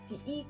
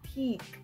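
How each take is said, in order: First: The two vowels are pronounced separately, back to back. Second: The vowel is one single, drawn-out long sound. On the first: This is the Tingatan dialect pronunciation. "like you would in the Tingatan dialect" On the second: This is the Nakau dialect pronunciation. "drawn out, like you say it for longer"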